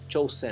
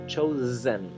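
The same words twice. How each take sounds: First: The middle consonant is a hissing s sound. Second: The middle consonant is a buzzing z sound. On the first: The speaker calls it wrong. "No es chosen" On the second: The speaker calls it right. "se pronuncia como una S zumbada. Z"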